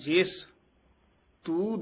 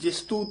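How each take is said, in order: First: The first word is emphasized and set apart. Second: The two words are run together as one. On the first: The speaker calls it right. "ਜਿੱਥੇ ਜਿਸ ਪਦ ਆ ਜੇ ਉੱਥੇ ਥੋੜਾ ਜਿਹਾ ਯਮਕ ਲਾ ਕੇ ਨਖੇਰ ਕੇ ਪੜ੍ਹਨਾ" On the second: The speaker calls it wrong. "ਜਿਸਤੂ ਤਿਸਤੂ ਨਹੀਂ ਕਹਿਣਾ"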